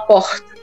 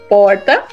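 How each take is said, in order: First: Said in a Rio accent with an S-like R. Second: Said in an inland accent with a changed R. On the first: "no Rio de Janeiro ele fala porta. O R tem um S junto" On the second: "Normalmente no interior a gente vai falar porta. O R muda"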